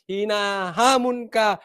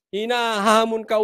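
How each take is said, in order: First: Slow, drawn-out challenge; emphatic repeat. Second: Said in the usual way. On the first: Real, not acted. (mabagal at madiing paghahamon) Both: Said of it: "ulitin ko".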